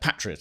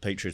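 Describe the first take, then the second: First: It is said with a British pronunciation. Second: It is said with an American pronunciation. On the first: The speaker calls it right. "patriot, I should say" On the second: The speaker calls it wrong. "I shouldn't use the American pronunciation"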